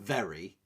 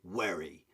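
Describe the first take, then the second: First: The word starts with a v sound. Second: The word starts with a w sound. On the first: "Instead of saying very" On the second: "they'll say werry. ... they mix up their V's and W's"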